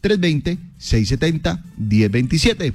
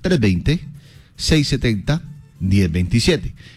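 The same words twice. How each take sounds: First: The number is said fast. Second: The number is said slowly.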